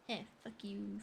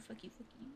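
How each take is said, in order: First: Said in the usual way. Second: Breathy whispered jab at chat; hushed playful curse. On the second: Real, not acted. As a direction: whisper it, teasing.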